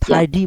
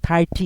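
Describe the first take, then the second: First: The middle consonant is a soft d-like sound. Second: The middle consonant is a crisp t sound. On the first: "থার্ডি বলতে পারে ওরা"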